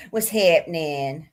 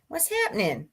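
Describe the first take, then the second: First: Low, slow, stretched greeting with a rising end; playful drawn-out greeting. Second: Said in the usual way. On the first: Pretend. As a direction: drag it out low and goofy. Playful repeated greeting, varied take.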